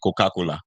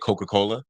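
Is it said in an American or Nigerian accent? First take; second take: Nigerian; American. First: It is said with a Nigerian accent. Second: It is said with an American accent.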